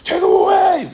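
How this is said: It is said aggressively.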